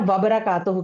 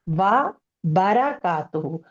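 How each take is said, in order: First: The word 'wa' is run into the next word. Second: The word 'wa' is kept separate from the next. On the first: The speaker calls it wrong. "हम अक्सर जो है ना वबरा कातहू कह देते हैं" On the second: The speaker calls it right. "वा अलग है, बारा कातू अलग है"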